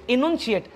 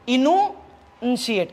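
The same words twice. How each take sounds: First: Said in the usual way. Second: इनुन्शिएट drawn out very slowly, part by part; slow pronunciation demo. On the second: Shown as a demonstration. Teacher repeats the new word for students, इनुन्शिएट slowly sounded out. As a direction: stretch इनुन्शिएट and break it in two for learners. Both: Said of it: "बघा पुन्हा सांगतो, pronunciation".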